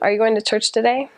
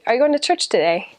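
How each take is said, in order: First: American intonation without the up-then-down tune. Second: British intonation: the voice goes up, then down.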